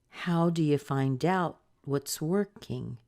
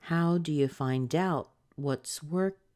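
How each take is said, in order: The two takes are said the same way.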